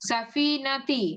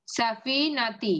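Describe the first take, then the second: First: Said in the usual way. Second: সাফিনাতি said very slowly, each syllable spaced and held; teacher repeating the word slowly so the class can copy it; slow demo. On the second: Shown as a demonstration. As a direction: read সাফিনাতি out slowly for the students. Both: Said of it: "দেখেন".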